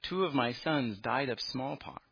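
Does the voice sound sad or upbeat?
sad. It is said in a sad, sighing tone. The speaker calls it right. "she said with a sigh"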